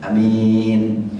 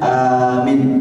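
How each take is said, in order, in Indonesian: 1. Vokal pertama pendek, yang kedua panjang. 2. Vokal pertama panjang, yang kedua pendek. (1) "Ada lagi mi-nya yang panjang, A-nya pendek" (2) "bagaimana kalau dipanjangkan A-nya?"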